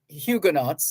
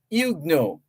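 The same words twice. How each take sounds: First: The word is said the anglicized English way. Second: The word is said the French way, T silent. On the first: "the English pronunciation" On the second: "the T there is silent because it's French"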